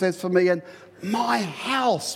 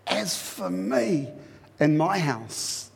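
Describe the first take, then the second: First: The stress is on "my house". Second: The stress is on "me".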